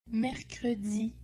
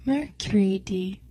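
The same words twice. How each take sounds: First: Said in the usual way. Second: "mercredi" said like "mur-kree-day"; demonstrated pronunciation. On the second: Shown as a demonstration. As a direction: say "mercredi" with "ee" in the middle, "ay" ending. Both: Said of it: "This is pronounced".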